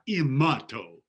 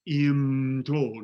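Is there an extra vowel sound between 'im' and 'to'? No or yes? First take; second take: yes; no. First: A small vowel sounds between m and t. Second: The m runs straight into the t. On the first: The speaker calls it wrong. "not imato" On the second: The speaker calls it right. "be sure it's imto"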